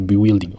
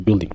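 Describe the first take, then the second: First: The U is sounded in the word. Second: The U is silent in the word. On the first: The speaker calls it wrong. "on ne dit pas bewilding" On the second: The speaker calls it right. "on dit building"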